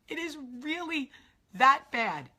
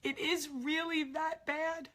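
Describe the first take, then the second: First: "that bad" punched out loud; stress on that bad. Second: Said in the usual way. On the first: Real, not acted. Insisting after her dad's death.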